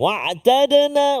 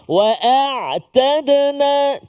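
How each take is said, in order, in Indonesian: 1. Hamzah menyatu dengan bunyi ain. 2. Hamzah dan ain diucapkan secara terpisah. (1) "dia jadi macam ain je. ... Dia tak jelas" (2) "Jelaskan hamzah dan juga ain tu kan"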